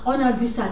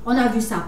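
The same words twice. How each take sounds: The two takes are said the same way.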